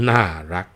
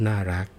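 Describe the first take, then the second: First: น่ารัก said with a louder sarcastic twist, meaning the opposite. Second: น่ารัก said sweetly and sincerely, meaning cute; น่ารัก in a plain sincere tone. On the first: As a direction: say น่ารัก mockingly so it is not praise. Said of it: "แต่ถ้าออกเสียงว่า". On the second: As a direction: say น่ารัก warmly as real praise. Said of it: "ก็ต่อเมื่อน่ารักออกเสียงว่า". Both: Shown as a demonstration.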